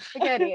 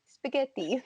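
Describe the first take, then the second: First: It is said with a plain American pronunciation. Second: It is said with an exaggerated Italian pronunciation. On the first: "So I'll be like" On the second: "she's like"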